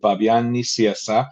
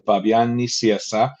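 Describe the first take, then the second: First: The name is said with a Spanish pronunciation. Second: The same.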